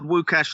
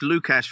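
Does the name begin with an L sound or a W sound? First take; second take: W; L. First: The name begins with a W sound. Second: The name begins with an L sound. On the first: The speaker calls it right. "made me pronounce his name right" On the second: The speaker calls it wrong. "I had called Wukash Lukash for years"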